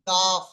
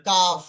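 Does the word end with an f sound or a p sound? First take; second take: f sound; f sound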